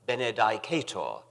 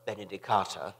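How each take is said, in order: First: The word ends with an audible r sound. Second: The word ends in an open vowel, no r. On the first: This is how older classically trained scholars said it. "Some of the older, classically trained fellows pronounced it" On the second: This is how most people said it. "I was one of the majority who pronounced this last word"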